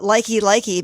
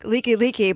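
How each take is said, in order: First: The first syllable has an 'eye' vowel. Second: The first syllable has an 'ee' vowel. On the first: This is how tourists say it. The speaker calls it wrong. "they call it Likey Likey" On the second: This is how locals say it. The speaker calls it right. "a highway that's like Liki Liki"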